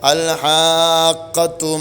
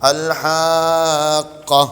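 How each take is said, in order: First: The word ends with a voweled t sound. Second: The word ends on a stopped h sound. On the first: The reciter joins this word to the next. "കൂട്ടി ഓതുകയാണെങ്കിലോ" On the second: The reciter pauses after this word. "അവിടെ നിർത്തുകയാണെങ്കിൽ ഹാഖ ഹാ ഇനെ സുക്കൂൻ ചെയ്യും"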